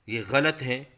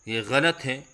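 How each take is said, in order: The two takes are said the same way.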